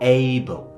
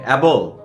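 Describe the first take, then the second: First: The first vowel glides like 'ay'. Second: The first vowel is like 'a' in 'cat'. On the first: The speaker calls it right. "কি হয়ে যাবে বলেন তো? এইবল" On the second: The speaker calls it wrong. "অ্যাবল না"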